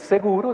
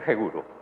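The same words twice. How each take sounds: First: The word starts with a plain s sound. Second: The word starts with a j-like sound. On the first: "En vez de decir seguro" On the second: "utilizan mucho la J para hablar"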